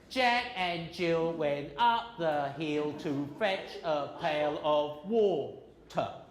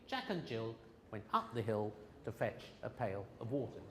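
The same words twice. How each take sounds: First: Each syllable gets an even beat, Chinese-accented. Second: Words are grouped in a stressed English rhythm.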